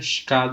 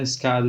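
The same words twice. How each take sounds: First: It is said in a Rio de Janeiro accent. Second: It is said in a São Paulo accent. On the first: "eu sou do Rio, eu falo" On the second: "Alguém de São Paulo vai falar"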